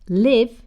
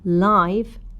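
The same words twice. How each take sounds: First: The vowel does not sound like 'eye'. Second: The vowel sounds like 'eye', as in 'lie'. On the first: It means being alive. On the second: It means seen in person or connected to electricity.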